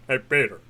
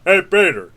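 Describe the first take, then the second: First: Said in the usual way. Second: Impression. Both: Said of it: "doing impressions".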